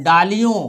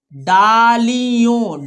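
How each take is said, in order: First: Said in the usual way. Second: डालियों très étiré, syllabe par syllabe; lecture syllabée. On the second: Shown as a demonstration. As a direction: tiens chaque syllabe de डालियों. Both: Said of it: "हमारे साथ पढ़ना है आपको".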